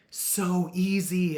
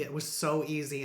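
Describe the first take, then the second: First: High, loud and drawn out "so easy"; amazed emphasis. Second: Said in the usual way. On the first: Real, not acted. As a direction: stretch it out, marvelling. Amazed at quitting sprays.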